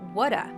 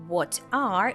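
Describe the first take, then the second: First: The T is a soft D, words linked. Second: The T is a clear T between the words. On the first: "it turns into a flap T or a soft D sound" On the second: "instead of what are"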